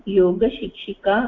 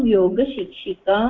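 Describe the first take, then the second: No difference in how they are said.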